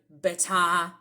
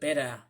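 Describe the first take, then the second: First: It is said in a British accent. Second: It is said in an Australian accent.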